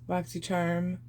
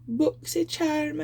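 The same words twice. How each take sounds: First: It is said in her normal voice. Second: It is said in a put-on accent.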